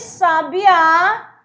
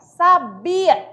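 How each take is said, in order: First: The stress is on the last syllable. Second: The stress is on the middle syllable. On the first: "marcando uma palavra oxítona, que a posição está na última, última sílaba" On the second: "é paroxítona também"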